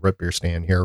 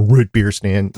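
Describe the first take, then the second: First: "root" with the short vowel of "foot"; regional "root". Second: "root" with a long "oo" as in "boot"; alternative "root". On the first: Host names a local stand, "root" rhyming with "foot". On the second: Host offers co-hosts their version, "root" rhyming with "boot". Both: Shown as a demonstration. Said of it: "whatever you wanna pronounce it as".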